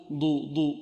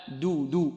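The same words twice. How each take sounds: First: ضو said with a heavy, emphatic D; the mistaken heavy ضو a student makes; wrong heavy ضو. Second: دو said with a light, thin D and slowly; slow, thin دو as the correct model. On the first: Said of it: "لا نقول". (نطق خاطئ مفخم لـ ضو) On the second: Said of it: "لا، دو دو". (نطق صحيح مرقق لـ دو) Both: Shown as a demonstration.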